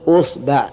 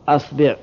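First: The word begins with the vowel u. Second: The word begins with the vowel a.

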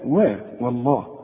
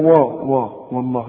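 First: The opening w sound is light and thin. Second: The opening w sound is heavy and emphatic. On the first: The speaker calls it right. "لا والله" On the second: The speaker calls it wrong. "فما تقولش بقى والله"

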